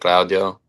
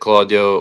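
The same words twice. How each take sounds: First: It is said with an Italian accent. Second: It is said with an English accent.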